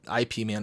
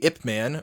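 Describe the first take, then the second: First: The first part is spelled out as letters. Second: The first part is said as one syllable. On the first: The speaker calls it wrong. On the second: The speaker calls it right.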